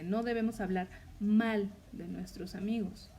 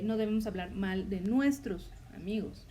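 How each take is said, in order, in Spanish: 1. La palabra mal lleva el énfasis. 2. La palabra nuestros lleva el énfasis. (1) "Ahí el énfasis es en la palabra mal" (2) "ahí el énfasis está en la palabra nuestros"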